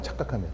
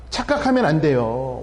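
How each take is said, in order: First: "착각하면" repeated low and hushed under the breath; soft echo. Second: "착각하면" stretched out slowly with weight; slow emphatic. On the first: Pastor quietly repeating "착각하면" to the congregation, hushed. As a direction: murmur "착각하면" quietly to yourself. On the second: Pastor warning the congregation, slow heavy stress on "착각하면". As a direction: lean hard on "착각하면", drawing it out. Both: Shown as a demonstration.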